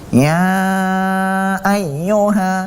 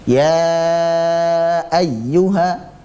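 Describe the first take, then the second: First: The sound comes out through the nose. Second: The sound comes out through the mouth. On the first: The speaker calls it wrong. "contoh bacaan yang salah yang keluar dari al-khayshum" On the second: The speaker calls it right. "yang harusnya kita keluarkan lewat rongga mulut seperti ini"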